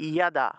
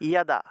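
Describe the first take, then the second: The two takes are said the same way.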